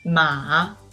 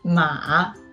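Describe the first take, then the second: First: The pitch starts low and then rises. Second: The pitch starts low and then rises.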